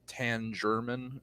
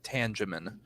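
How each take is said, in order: First: The name is said with an added R sound. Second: The name is said without an R sound. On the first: The speaker calls it wrong. "they add an unnecessary R into it" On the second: The speaker calls it right. "it's pronounced Tangemin"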